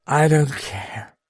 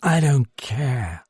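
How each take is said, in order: First: Slow, slurred, higher tipsy woman; lightly slurred defiant shrug; slurred accent. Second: Slow, slurred and dragged out; a hint of tipsy defiance; slurred repeat. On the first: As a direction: let the words slide, half drunk. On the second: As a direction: mumble it again, lightly drunk. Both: A narrator's reading. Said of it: "she said in that slurred accent".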